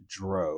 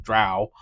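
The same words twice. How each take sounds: First: "Drow" said to rhyme with "go"; "Drow" with an oh vowel; mispronounced Drow. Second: "Drow" said to rhyme with "cow"; "Drow" as in "now", not "dro"; corrected pronunciation. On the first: Real, not acted. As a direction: say "Drow" with a long O, like "dro". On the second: Shown as a demonstration. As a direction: say "Drow" with an ow vowel. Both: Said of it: "I said it wrong".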